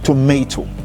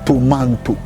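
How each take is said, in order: First: It has no n sound before the t. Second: It has an n sound before the t. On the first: The speaker calls it right. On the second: The speaker calls it wrong.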